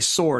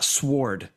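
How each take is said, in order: First: The W in the word is silent. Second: The W in the word is clearly pronounced. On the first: The speaker calls it right. "say sword" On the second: The speaker calls it wrong. "hit the hard W on sword"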